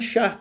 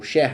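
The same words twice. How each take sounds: First: The name is said with a Portuguese-style pronunciation. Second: The name is said with a German-style pronunciation. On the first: The speaker calls it wrong. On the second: The speaker calls it right.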